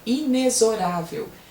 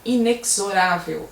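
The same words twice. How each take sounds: First: The x is pronounced like 'z'. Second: The x is pronounced like 'ks'. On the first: The speaker calls it right. "é inexorável" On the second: The speaker calls it wrong. "Estão falando errado"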